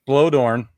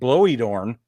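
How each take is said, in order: First: The surname is pronounced in its usual way. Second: The surname is pronounced in a deliberately altered way. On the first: The speaker calls it right. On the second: The speaker calls it wrong.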